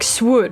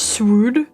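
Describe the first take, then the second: First: The vowel rhymes with good. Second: The vowel does not rhyme with good. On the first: "if it's good, then it should be like swood" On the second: "I read it as swood"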